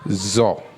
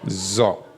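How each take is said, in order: First: The vowel sounds dark, like 'o'. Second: The same.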